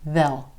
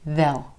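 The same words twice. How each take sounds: First: It is a contraction with a reduced vowel. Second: The same.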